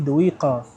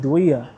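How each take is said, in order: First: The q sound in the middle is pronounced. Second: The q sound in the middle is dropped. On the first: This is the full standard form of the name. "but it's actually Douiqa" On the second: This is how people in Egypt say it. "They say Douiya"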